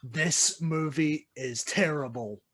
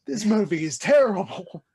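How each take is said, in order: First: Slow, measured, flat verdict on the film. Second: Louder, higher exasperated verdict; exasperated outburst. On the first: Retold or imitated. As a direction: lay it down slowly like a final judgement. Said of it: "the part of me that just is a lover of cinema that says". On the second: Real, not acted. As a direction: let the frustration burst out. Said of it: "how much I hate this movie".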